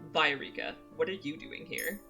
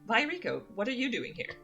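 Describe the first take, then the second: First: The line is read in a cold tone. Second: The line is read in a neutral tone. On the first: The speaker calls it right. "reread a line in a tone that I think is more accurate" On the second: The speaker calls it wrong. "I actually feel like I should have read that differently"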